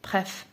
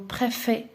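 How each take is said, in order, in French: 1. La voyelle après le f est supprimée. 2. La voyelle après le f est prononcée. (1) "ما كنقولوش بريف بريف" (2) "نقول بريفي"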